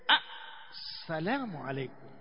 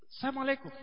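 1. Il saluto inizia con la sillaba 'as'. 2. Il saluto inizia direttamente con 'salamu'. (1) "useme assalamu alaykum" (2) "matamshi haya mengine yanakuwa kimakosa"

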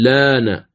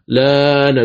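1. تُنطق الحركة الأولى قصيرة. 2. تُنطق الحركة الأولى طويلة. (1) "تمد بالأوجه 3" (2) "تمد بالأوجه 3"

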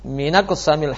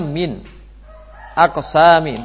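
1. Hamzah dihilangkan, sehingga kedua kata tersambung. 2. Hamzah tetap dibaca di antara kedua kata. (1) "diucapkan dengan meninggalkan hamzah"

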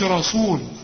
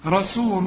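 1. صوت السين ثقيل ومفخّم. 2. صوت السين خفيف ومرقّق.

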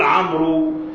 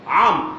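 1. ينتهي الاسم بصوت 'oo' منطوق بوضوح. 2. ينتهي الاسم دون أي صوت حركة في آخره. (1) "لا يصح أن تقول عمرو، هذا خطأ" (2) "عمر فقط"

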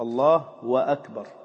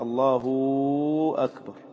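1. يسبق أكبر مقطع 'wa' منفصل. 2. يسبق أكبر صوت 'u' طويل. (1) "واوا متحركة" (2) "واوا ساكنة"

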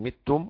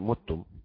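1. الحركة الأولى كسرة. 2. الحركة الأولى ضمة. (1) "يكسر الميم" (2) "والباقي"

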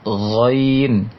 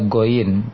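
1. Diawali dengan bunyi frikatif tenggorokan yang tertahan. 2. Diawali dengan bunyi g yang keras dan tertutup. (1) "tapi Ghain" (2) "jangan dibaca Ghain"

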